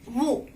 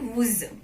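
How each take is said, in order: First: The final consonant is silent. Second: The final consonant is sounded. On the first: The speaker calls it right. "You will not pronounce S at the end of word" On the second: The speaker calls it wrong. "not wooz"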